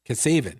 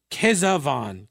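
First: Kesavan as kuh-SAY-vun; settled-on pronunciation. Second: Kesavan as KEZ-uh-von; first-try pronunciation. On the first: Shown as a demonstration. Host guessing how he pronounces it, Kesavan as kuh-SAY-vun. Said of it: "I think is how he pronounces it". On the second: Real, not acted. Host reading an unfamiliar name, Kesavan as KEZ-uh-von. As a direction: say Kesavan slowly, ending in a full "von".

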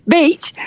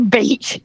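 First: Higher, rising questioning repeat; incredulous echo. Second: Said in the usual way. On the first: Real, not acted. Asked about the beach on a cold UK trip, incredulous. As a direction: throw it back as a disbelieving question.

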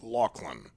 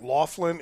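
First: Lachlan said with a hard K, like "Lock-lin"; correct pronunciation. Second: Laughlin said as it looks; spelling pronunciation. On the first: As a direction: say Lachlan as the name is pronounced. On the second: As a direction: say Laughlin the way it is spelt. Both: Shown as a demonstration. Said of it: "It's pronounced Lachlan".

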